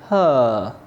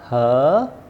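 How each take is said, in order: First: The voice falls on the word. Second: The voice rises on the word. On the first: "or down" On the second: "the way our voice goes up"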